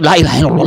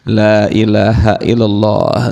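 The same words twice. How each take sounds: First: It is said quickly and hurriedly. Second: It is said slowly and calmly. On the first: The person is poor and in a hurry. The speaker calls it wrong. "dikiran cepet-cepet" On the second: The person has a full wallet and feels at ease. The speaker calls it right.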